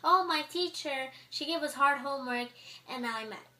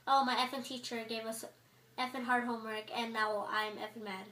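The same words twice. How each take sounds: First: Clean complaint. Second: Mock sweary gripe in an everyday pitch; cussing complaint. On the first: Student griping about a teacher without cussing, mildly indignant. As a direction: voice a mild, clean-worded gripe, pitched up. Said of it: "Why couldn't you say". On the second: Student overdoing cuss words about a teacher, casual mock griping. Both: Shown as a demonstration.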